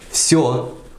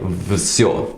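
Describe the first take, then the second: First: The word begins with a voiceless f sound. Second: The word begins with a voiced v sound. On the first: The speaker calls it right. "pronounced with a f at the beginning" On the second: The speaker calls it wrong. "written like всё with a, with a v sound"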